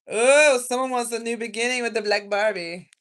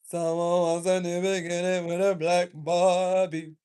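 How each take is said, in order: First: Loud, high burst of discovery; real excited "oh" reaction; excited outburst. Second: Slow, loud, stretched-out repeat; loud, drawn out. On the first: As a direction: exclaim it loudly, starting high. Sudden reaction to a card. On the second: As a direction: draw every word out loudly. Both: Real, not acted.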